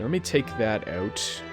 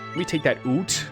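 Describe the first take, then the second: First: It is said in a plain, unmarked accent. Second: It is said in an exaggerated Canadian accent.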